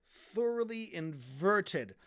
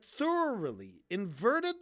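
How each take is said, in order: First: THOROUGHLY INVERTED slowly drawn out; slow, deliberate THOROUGHLY INVERTED for weight; slow emphatic repeat. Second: Said in the usual way. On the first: Real, not acted. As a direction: dwell on each word of THOROUGHLY INVERTED.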